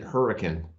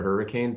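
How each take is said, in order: First: It is said the way locals say the town. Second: It is said like the common storm word. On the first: This is how the town name is said locally. "everyone pronounces it hurricane" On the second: This is the word for the storm. "like the natural disaster or hurricane"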